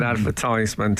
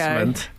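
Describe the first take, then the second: First: It is said the American way. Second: It is said the traditional British RP way.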